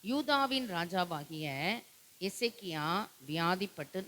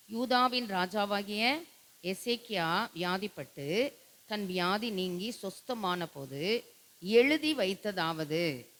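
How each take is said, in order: First: Said in the usual way. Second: Slow, patient scripture reading. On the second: Shown as a demonstration. Pastor shows the congregation how to read, slowly. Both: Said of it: "நல்ல பொறுமையா வாசிக்கணும்".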